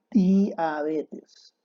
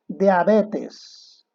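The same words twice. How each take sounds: First: Diabetes said very slowly, with a clear "di"; pronunciación correcta. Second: Diabetes said louder, as /deabetes/ with "de"; mala pronunciación. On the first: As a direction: draw out diabetes, each syllable clean. (diabetes, muy despacio y con "di" clara) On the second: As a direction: say Diabetes as deabetes, the wrong vowel. (Diabetes pronunciado "deabetes", mal dicho) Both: Shown as a demonstration. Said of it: "es diabetes".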